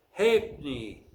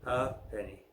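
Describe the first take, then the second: First: Halfpenny as "HAYP-nee", in two syllables; Halfpenny squeezed to "HAYP-nee", stress up front; silent F. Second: Halfpenny as "HAP-eh-nee", in three syllables; lower, softer Halfpenny, sounded out as "HAP-eh-nee"; American pronunciation. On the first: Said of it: "the F is silent in the following word". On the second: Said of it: "in American English, it is pronounced differently". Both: Shown as a demonstration.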